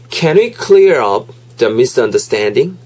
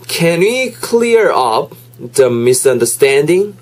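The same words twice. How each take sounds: First: The sentence is spoken at normal speed. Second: The sentence is spoken slowly.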